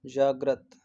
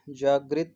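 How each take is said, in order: First: जागृत ending in -grat; JAAG-rat, short a in the last syllable of जागृत; correct pronunciation. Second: जागृत ending in -grit; JAAG-rit, an i sound in जागृत; wrong pronunciation. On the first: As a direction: model जागृत with -grat, no i sound. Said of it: "ये वाला correct है जागृत". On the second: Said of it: "जागृत नहीं होता है". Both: Shown as a demonstration.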